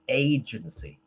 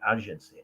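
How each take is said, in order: First: It is pronounced the way English speakers say it. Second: It is pronounced the way foreign speakers say it. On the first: The speaker calls it right. "In English, we say agency" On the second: The speaker calls it wrong. "not agency"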